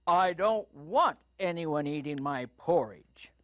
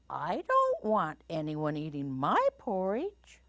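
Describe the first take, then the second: First: Big papa bear voice, punched WANT; booming Papa Bear. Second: Lightly voiced mama bear, swooping up. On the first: Papa Bear objects about his porridge, booming. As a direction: lightly boom it, laying down the law. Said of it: "in his booming voice". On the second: Mama Bear objects about her porridge, lilting rising voice. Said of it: "said Mama Bear in her quiet voice". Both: A narrator's reading.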